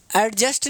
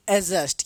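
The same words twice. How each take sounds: First: एडजस्ट said with a sounded d, "ad-just"; wrong pronunciation. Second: एडजस्ट said "ajust" with the d silent. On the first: Teacher to class, showing the wrong way with the d sounded in एडजस्ट. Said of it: "एडजस्ट नहीं". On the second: Teacher to class, giving the right way with a silent d in एडजस्ट. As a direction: drop the d in एडजस्ट, saying "ajust". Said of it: "ये नहीं पढ़ा जाता है". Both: Shown as a demonstration.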